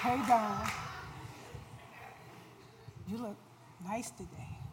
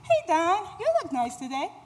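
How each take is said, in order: First: It is said in a lustful, seductive tone. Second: It is said in a lightly flirty tone.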